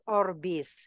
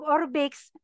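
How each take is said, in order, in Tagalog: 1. Nagtatapos ang salita sa payak na tunog na s. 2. Nagtatapos ang salita sa tunog na ks. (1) "ipopronounce po natin as Orbis" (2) "minsan naririnig ko po binibigkas po nilang Orbix"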